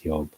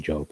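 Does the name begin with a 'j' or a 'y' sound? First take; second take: y; j. First: It begins with a 'y' sound. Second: It begins with an English 'j' sound. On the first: The speaker calls it right. "so it's Job" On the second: The speaker calls it wrong. "you don't say Job"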